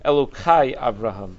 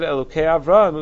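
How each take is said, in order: First: The second syllable ends in an 'ai' sound. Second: The second syllable ends in an 'ei' sound. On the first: It implies more than one god. "as if it was written Elokai Avraham" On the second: It refers to one God. "they would say the tzere"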